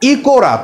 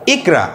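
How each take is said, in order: First: An o vowel is heard between k and r. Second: The k joins the r with no vowel between. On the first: The speaker calls it wrong. "তাহলে কিন্তু এর উচ্চারণটা হয়ে যায় ইকোরা" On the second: The speaker calls it right. "সেই আসল উচ্চারণ আমরা করতে পারি যে ইকরা"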